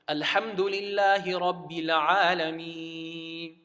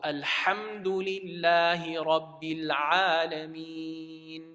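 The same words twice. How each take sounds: First: The final n sound is left out. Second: The final n sound is clearly pronounced. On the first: The speaker calls it wrong. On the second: The speaker calls it right.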